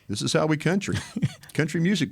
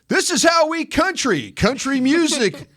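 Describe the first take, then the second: First: It is read flat, without enthusiasm. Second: It is read with lively, enthusiastic energy. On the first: The speaker calls it wrong. "you can't read it like" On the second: The speaker calls it right. "they'll get mad at if you don't show enthusiasm"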